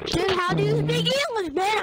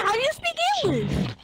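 First: High, loud incredulous question; excited. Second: Very high, loud shriek of disbelief. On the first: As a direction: squeal it in disbelief. Teasing a teammate's speech. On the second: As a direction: push the question into a shriek. Repeating, even higher. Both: Real, not acted.

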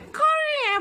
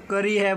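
First: High-pitched imitation of a child; squeaky put-on "करी है"; put-on camera voice. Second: Said in the usual way. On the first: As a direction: mimic the kid performing for the camera in a high voice. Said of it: "ये ना कैमरे में". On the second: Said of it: "और वैसे".

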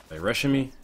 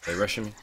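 First: Startled and loud; alarmed. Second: Said in the usual way. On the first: Real, not acted. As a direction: blurt it out in alarm.

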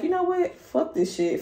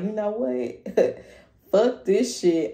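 First: Very high, sudden and quick; quick fed-up snap. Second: Higher and slow, drawn out; fed-up outburst. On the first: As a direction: fire it off. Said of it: "woke up one day and like". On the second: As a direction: done with it all. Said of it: "You're just like". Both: Pretend.

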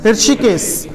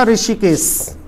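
First: ऋषिकेश starting "hrishi", heard as "irshi"; correct pronunciation. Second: ऋषिकेश starting "ri-shi"; slow ऋषिकेश with the vowel after the r; common mispronunciation. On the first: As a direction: say ऋषिकेश as "(h)ir-shi-kes". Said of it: "शुद्ध शब्द क्या था?". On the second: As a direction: say ऋषिकेश as "ri-shi-kes", slowly. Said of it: "गलत उच्चारण किया". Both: Shown as a demonstration.

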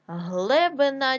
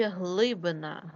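First: Глебина with е instead of и; wrong variant Глебина, first vowel е; е in first syllable. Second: Said in the usual way. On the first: Shown as a demonstration. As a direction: say Глебина with open e after Гл. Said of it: "нам потрібно вставити або". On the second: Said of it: "Глибінь".

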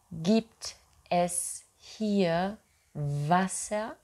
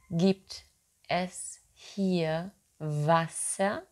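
The two takes are said the same way.

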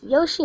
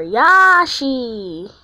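First: "Yoshi" with an oh in the first syllable; Yoshi with long O. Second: "Yashi" with a long, loud ah. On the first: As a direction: say "Yoshi" as YOH-shee. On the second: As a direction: say "Yashi" as YAH-shee, drawn out. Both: Shown as a demonstration. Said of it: "What do you pronounce it as?".

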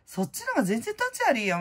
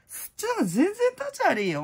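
First: Said in the usual way. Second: Much higher and louder, stress on 立; emphatic high repeat. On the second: Shown as a demonstration. Repeating her point about tax dodgers, a high emphatic outburst. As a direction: push it up high and hammer 立ち悪い. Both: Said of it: "repeated with more force".

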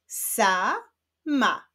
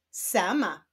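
First: "Sama" as two drawn-out syllables with a gap; syllables held apart. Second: Said in the usual way. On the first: Shown as a demonstration. Teacher reading the second word, "Sama" split into syllables. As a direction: sound out "Sama" one long syllable at a time. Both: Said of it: "odczytajmy wyrazy poprzez połączenia sylab".

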